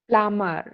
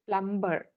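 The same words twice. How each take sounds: First: No b sound is heard in the middle. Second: A b sound is heard in the middle. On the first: The speaker calls it right. "B is actually silent there" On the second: The speaker calls it wrong. "we usually say this word as plumber. That is not right"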